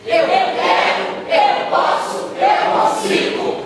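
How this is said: It is said forcefully, with strong conviction.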